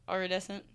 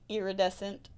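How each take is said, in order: First: The first syllable sounds like 'eye'. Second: The first syllable sounds like 'ear'. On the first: "not I I" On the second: "I'm saying it like that because they're Disney's calling it iridescent, like E A R"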